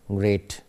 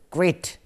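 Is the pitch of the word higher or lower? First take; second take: lower; higher. First: The word is said at a lower pitch. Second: The word is said at a higher pitch.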